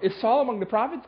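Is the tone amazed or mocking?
amazed. It is said with amazed wonder.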